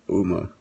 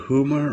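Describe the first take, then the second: First: The name begins directly with a vowel. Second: The name begins with an H sound.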